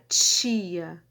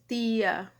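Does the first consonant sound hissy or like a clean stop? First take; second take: hissy; stop. First: The t is hissy, like ch, before i. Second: The t is a clean stop before i. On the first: This is the typical Rio de Janeiro pronunciation. "Eu realizo ele como africado, né? Então ele sai tia, ele sai meio chiado" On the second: This is the typical Northeastern pronunciation. "o sotaque nordestino se eu dissesse tia, se eu utilizasse, né, o t oclusivo"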